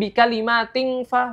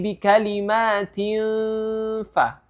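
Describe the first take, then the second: First: The nasal hum is a back 'ng' sound. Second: The nasal hum is shaped toward lips and teeth. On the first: The speaker calls it wrong. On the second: The speaker calls it right.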